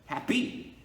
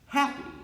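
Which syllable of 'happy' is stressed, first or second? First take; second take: second; first. First: The stress is on the second syllable. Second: The stress is on the first syllable. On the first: The speaker calls it wrong. "it sounds weird if I emphasize the second one" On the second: The speaker calls it right. "I pronounce it with the with the first syllable like emphasized"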